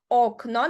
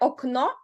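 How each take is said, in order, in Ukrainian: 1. Наголос на першому складі. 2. Наголос на останньому складі. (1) "а окно, на передостанній склад" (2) "не окно"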